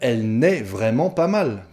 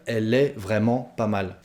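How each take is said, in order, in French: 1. La particule négative 'ne' est prononcée. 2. La particule négative 'ne' est omise. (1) "puisqu'on est à la forme négative" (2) "En français courant, en français parlé, on va dire"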